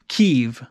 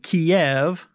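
First: It uses the Ukrainian-style pronunciation. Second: It uses the traditional English-style pronunciation. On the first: This is how the local people say it. The speaker calls it right. "the correct pronunciation, Kiev. So that's how Ukrainians pronounce it" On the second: This is the long-used habit of English speakers. The speaker calls it wrong. "we always, you know, pronounce it Kiev"

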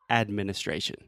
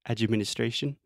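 First: It is said without any extra vowel sound. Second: It has a Brazilian-style extra "chi" vowel sound.

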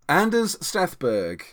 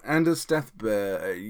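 First: The final g after r sounds English. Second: The final g after r sounds Swedish.

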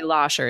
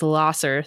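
First: The middle consonant is a sh sound. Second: The middle consonant is an s sound. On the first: The speaker is a local. "But you say Lasher" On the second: The speaker is not from the area. "if anyone says Lasser, you're like, oh, yeah"

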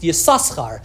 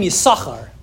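First: The name is said with two s sounds. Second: The name is said with only one s sound.

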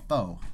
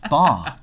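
First: The vowel sounds like 'oh' as in 'foe'. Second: The vowel sounds like a short 'ah'. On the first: This is the common anglicized way to say it. "but I'm going to call it "pho."" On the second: This is the proper way to say it. "it's pronounced "fa,""

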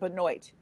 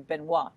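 First: The name is said the non-Canadian way. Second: The name is said the Canadian way. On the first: This is how the name's owner says it. "She pronounces it Benoit" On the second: This is how Canadians would say the name. "if you're Canadian, it would be Benoit"

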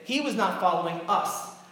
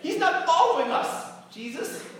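First: It is said in a normal adult voice. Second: It is said in a whiny child's voice.

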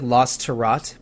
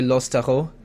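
First: The name is read the way it is spelled. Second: The name is said with a French pronunciation. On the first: "it looks like Losterot" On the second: "if it was totally French, it would be probably Losteron"

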